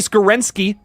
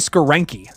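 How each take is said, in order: First: The name ends with a 'ski' sound. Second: The name ends without a 'ski' sound. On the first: The speaker calls it wrong. "I put a little ski in there" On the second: The speaker calls it right. "there's no ski"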